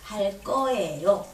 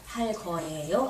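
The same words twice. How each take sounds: First: 거예요 begins with a tense kk sound. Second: 거예요 begins with a plain g sound. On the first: The speaker calls it right. "끄로 발음을 해줘야 됩니다" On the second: The speaker calls it wrong. "이렇게 하면 안 됩니다"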